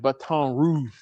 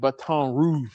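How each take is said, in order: First: It is said with a French pronunciation. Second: It is said with a French pronunciation.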